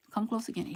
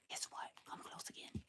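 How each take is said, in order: First: Said in the usual way. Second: Hushed, breathy whisper into the mic. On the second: Real, not acted. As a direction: lean in and whisper it like a secret. Leaning toward camera, secretive.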